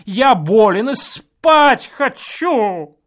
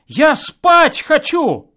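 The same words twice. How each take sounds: First: Loud slow plea, higher; pleading shout. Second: Loud, higher, slow mimicking of the plea; mock his whining; mocking echo. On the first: Guest pleads through the wall to be let sleep. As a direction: beg for sleep, loudly. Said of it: "крикнул я умоляющим голосом". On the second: Neighbour mimics the guest's plea, mocking and loud. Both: A narrator's reading.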